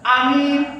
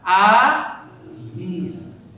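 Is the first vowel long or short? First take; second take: short; long. First: The first vowel is short, the second long. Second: The first vowel is drawn out long. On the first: It means trustworthy. "A-nya sekarang alifnya nggak nggak panjang tapi minnya" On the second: It means answer our prayer. "Makanya panjang yang benar apa?"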